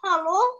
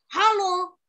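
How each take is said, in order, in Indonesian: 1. Diucapkan dengan cara cemas. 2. Diucapkan dengan cara marah. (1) "Kalau sekarang ekspresinya cemas" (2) "Kalau sekarang ekspresinya marah"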